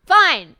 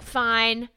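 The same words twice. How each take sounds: First: Fine snapped much higher and louder; hammed-up fed-up shout of fine; exasperated fine. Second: Muttered, dismissive Fine; a grudging, throwaway Fine with no remorse; mock grudging Fine. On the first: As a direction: bark out fine in mock exasperation. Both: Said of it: "doesn't even say it with, like, remorse in his voice".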